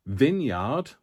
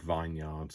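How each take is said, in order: First: "Vineyard" as VIN-yard; short-i pronunciation. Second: "vineyard" as VINE-yard; mistaken pronunciation. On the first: Reading an ink name to viewers, "Vineyard" as VIN-yard. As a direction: say the first syllable of "Vineyard" like "vin". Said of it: "I nearly said vineyard". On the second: Confessing a near slip to viewers, "vineyard" as VINE-yard. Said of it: "I nearly said". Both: Shown as a demonstration.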